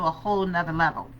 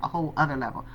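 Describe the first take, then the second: First: "nother" said with a leading n; casual "whole nother", n added before other; colloquial "nother". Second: "other" without the leading n; self-correction to "other", dropped low and quiet; corrected "other". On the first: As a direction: run the n onto other, "nother". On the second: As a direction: say "other" starting on the vowel, softer aside. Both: Shown as a demonstration. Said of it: "Why would we say another level?".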